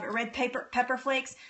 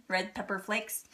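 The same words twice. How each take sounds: First: "red paper" said for "red pepper", then "pepper flakes" as the fix; slip of the tongue. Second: Said in the usual way. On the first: Real, not acted. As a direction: trip over "red paper" before catching it. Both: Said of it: "I can't say it".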